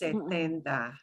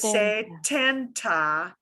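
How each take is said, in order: First: The t is muted with little air. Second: The t has a strong puff of air. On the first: The speaker calls it right. "you'll hear it as setenta" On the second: The speaker calls it wrong. "you won't hear it as setenta"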